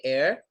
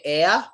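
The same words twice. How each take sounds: First: "air" with a light final R. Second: "air" ending "eh-uh", no R; R as vowel. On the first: Teacher showing one of many ways, R sounded. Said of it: "There's many ways". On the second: Teacher showing another way, R dropped. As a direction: swap the final R of "air" for an A. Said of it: "pronounce the R at the end of the word as another A". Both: Shown as a demonstration.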